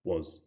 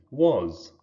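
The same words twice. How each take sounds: First: "was" weakened to a schwa, like "wuz"; unstressed "was", softer and short; reduced vowel. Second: "was" drawn out with its full vowel; stressed "was", vowel given full weight. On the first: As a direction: say "was" softly with a neutral vowel. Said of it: "it sort of just becomes was". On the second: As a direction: pronounce "was" fully and carefully. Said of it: "doing the full heightening". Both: Shown as a demonstration.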